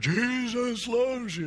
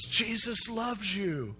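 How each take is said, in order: First: High, slow, booming mock megaphone; imitated megaphone yell. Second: High, drawn-out mock yell. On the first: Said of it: "it acted like a megaphone". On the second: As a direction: stretch it out high without real volume. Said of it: "And he just yells".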